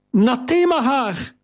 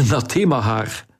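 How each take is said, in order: First: "Nathema haar!" called out much higher, "Nathema" stressed; joyful cry. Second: "Nathema haar" said lower through a laugh; relieved laugh. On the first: Kariline throwing herself at the stranger, crying out joyfully. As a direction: fling out the name in glad recognition. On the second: Theo laughing with relief at the friend's name. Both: Acted.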